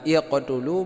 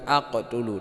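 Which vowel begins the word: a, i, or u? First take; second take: i; a. First: The word begins with an i vowel. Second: The word begins with an a vowel. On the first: "bukan iqtulu" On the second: "bukan aqtulu"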